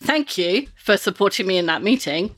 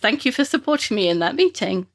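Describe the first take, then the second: First: It is said with a sarcastic tone. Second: It is said sincerely, as genuine thanks.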